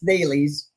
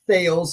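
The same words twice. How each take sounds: First: It does not sound like a lisped 'sales'. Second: It sounds like 'sales' said with a lisp. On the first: The speaker calls it right. "It's not. It's Thales" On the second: The speaker calls it wrong. "like Mike Tyson talking about sales"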